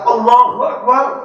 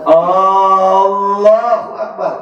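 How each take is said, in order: First: The opening vowel of Allahu is short. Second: The opening vowel of Allahu is drawn out long. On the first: It states that God is the greatest. The speaker calls it right. "kalau ibu berkata Allahu Akbar, ya Allah yang Maha Agung" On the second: It asks whether God is the greatest. The speaker calls it wrong. "kalau ibu panjangkan aja itu hamzah lafzul jalalahnya"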